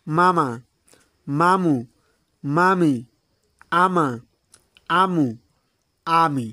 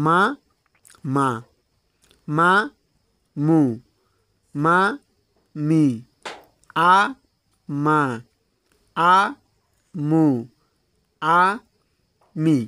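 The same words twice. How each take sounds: First: "মামা, মামু, মামি, আমা, আমু, আমি" each blended into one word; joined-up direct reading. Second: "মা, মা, মা, মু, মা, মি, আ, মা, আ, মু, আ, মি" with a long pause after every syllable; one syllable at a time. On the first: Teacher shows students direct pronunciation, each syllable pair joined as one. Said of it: "এখন আমি সরাসরি অক্ষর উচ্চারণ দেব". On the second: Teacher gives students one letter at a time, each syllable isolated. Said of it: "একটা করে অক্ষরের উচ্চারণ আমি দিচ্ছি". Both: Shown as a demonstration.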